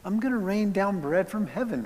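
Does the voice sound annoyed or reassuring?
reassuring. The voice sounds gentle and reassuring. The provision is given out of comfort and care. "It's okay"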